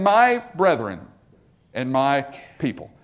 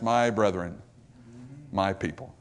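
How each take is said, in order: First: Fatherly compassion for his people. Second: Much softer and lower, tender and fading; dying king's soft words to his people; tone of love. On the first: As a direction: speak to them with love. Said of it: "addresses them in this tone of compassion". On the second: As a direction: address them with quiet love. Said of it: "in this tone of love for them". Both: Acted.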